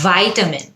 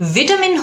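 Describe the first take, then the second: First: It is said with an American pronunciation. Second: It is said with a British pronunciation. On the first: "তখন হয়ে যায় ওটা American" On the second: "হলো British উচ্চারণ"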